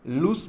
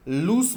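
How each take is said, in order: First: "लूज" said as loose, ending in a crisp hissed s; correct pronunciation. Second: "लूज" said as lose, with a buzzing z sound at the end; wrong pronunciation. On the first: Teacher models the correct pronunciation of loose, with an s ending. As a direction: model the right "लूज" with a sharp s at the end. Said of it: "इसका सही pronunciation". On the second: Teacher shows students the wrong way to say loose, with a z ending. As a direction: demonstrate the mistaken "लूज" ending in a voiced z. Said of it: "लूज नहीं बोलें". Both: Shown as a demonstration.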